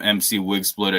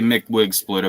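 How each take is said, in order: First: MC is said as two separate letters. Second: MC is said as one syllable, 'Mick'. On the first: The speaker calls it wrong. "I mispronounced it and always called him M C Wig Splitter" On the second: The speaker calls it right. "It's supposed to be Mick Wig Splitter"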